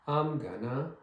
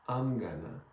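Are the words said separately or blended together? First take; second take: blended; blended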